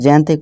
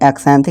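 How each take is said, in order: First: The word begins with a 'z' sound. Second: The word begins with a 'ks' sound. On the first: The speaker calls it right. "इसे जैंथिक यानी जा की आवाज़ दे रहे हैं" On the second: The speaker calls it wrong. "इसे एक्सैंथिक नहीं"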